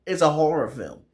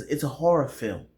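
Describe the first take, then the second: First: "horror film" punched louder and higher; "it's a horror film" loud, raised and emphatic; emphatic reveal. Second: Said in the usual way. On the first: Shown as a demonstration. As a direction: announce "horror film" loudly as a big reveal. Repeats it as a big reveal.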